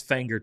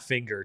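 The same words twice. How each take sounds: First: Fanger said with an a as in fang; Fanger, a like in fang, not Finger; correct local pronunciation. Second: Finger said with a short i as in finger; the mistaken Finger, i like in finger; wrong pronunciation. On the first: Correcting the town name for a viewer, Fanger with an a as in fang. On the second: Finger with an i, the way he first misread the town name. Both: Shown as a demonstration. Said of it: "I should have said Fanger, not Finger".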